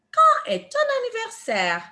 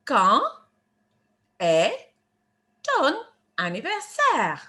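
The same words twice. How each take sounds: First: Joined-up French question, higher pitched; teacher modelling the full phrase for repetition; whole phrase model. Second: One French word at a time, pauses between. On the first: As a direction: run the words together as one clear question. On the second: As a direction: break the question into separate, deliberate words. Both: Shown as a demonstration. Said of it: "How do we say that in French".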